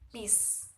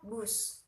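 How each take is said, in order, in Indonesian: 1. Vokalnya i. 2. Vokalnya u. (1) "kata tidak baku menggunakan i" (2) "Kata baku menggunakan u"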